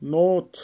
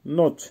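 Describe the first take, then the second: First: নোচ with a long, held O; drawn-out pronunciation demo. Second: Said in the usual way. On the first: Shown as a demonstration. Teacher showing learners how নোচ is pronounced, vowel drawn out. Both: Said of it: "উচ্চারণ হবে নোচ".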